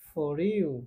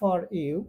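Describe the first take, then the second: First: The r sound links into the next word. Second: The two words are said separately. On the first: "এটার উচ্চারণ হবে" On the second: "আমরা বলি"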